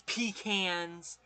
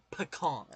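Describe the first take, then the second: First: "pecans" said PEE-cans; long stressed ee in "pecans", cans as in tin cans; rejected PEE-cans pronunciation. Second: "pecan" said firmly as puh-KAHN; correcting to puh-KAHN. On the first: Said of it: "There is no such thing as". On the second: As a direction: stress the long ah ending of "pecan". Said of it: "It's pecan". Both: Shown as a demonstration.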